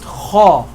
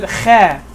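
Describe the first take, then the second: First: The vowel is a full, deep 'ah' sound. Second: The vowel is a thin, light 'a' sound. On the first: The speaker calls it right. "it'll be pronounced kha" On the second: The speaker calls it wrong. "If I ever pronounce it kha, that's incorrect"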